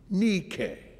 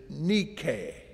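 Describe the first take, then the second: First: The name is said with a Greek pronunciation. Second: The name is said with a Greek pronunciation.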